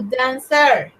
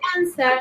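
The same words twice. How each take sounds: First: The stress is on the second syllable. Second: The stress is on the first syllable. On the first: The speaker calls it wrong. "no dancer" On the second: The speaker calls it right. "So we say dancer"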